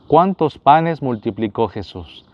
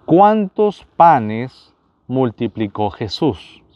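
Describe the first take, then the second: First: Said in the usual way. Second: Each word drawn out, very slow; slow quiz question. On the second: Shown as a demonstration. Quiz host to viewers, asking the question very slowly. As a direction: spell out the question slowly for the audience.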